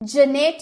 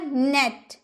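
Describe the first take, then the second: First: It begins with a 'j' sound before 'n'. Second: It begins directly with an 'n' sound. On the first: The speaker calls it wrong. "जनेट नहीं बोलेंगे" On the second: The speaker calls it right. "आप बोलिएगा नेट"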